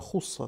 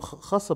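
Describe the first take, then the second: First: The first vowel is a 'u' sound. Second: The first vowel is an 'a' sound. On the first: The speaker calls it right. "хусса там" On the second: The speaker calls it wrong. "я там хасса прочитал, я ошибся"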